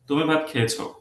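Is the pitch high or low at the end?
low. The pitch stays low at the end. It states that the person has eaten. "এটা বোঝাচ্ছে যে সে খাইছে, statement"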